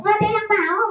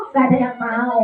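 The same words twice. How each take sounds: First: High questioning puppet voice; puppet character. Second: Said in the usual way. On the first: Acted. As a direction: echo it as a puppet. Puppet echoes presenter.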